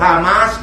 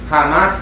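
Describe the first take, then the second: First: The H at the start is silent. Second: The H at the start is breathed out.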